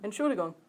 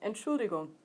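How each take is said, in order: The two takes are said the same way.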